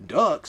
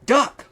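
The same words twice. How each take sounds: First: Confused echo rising at the end; puzzled question. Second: Much higher, louder sharp warning shout; sudden yell. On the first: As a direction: repeat it as if baffled. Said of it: "said Marcus". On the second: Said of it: "Laura yelled suddenly". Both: Acted.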